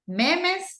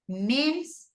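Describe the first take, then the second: First: The word is pronounced with Spanish sounds. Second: The word is pronounced with English sounds. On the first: The speaker calls it wrong. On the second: The speaker calls it right.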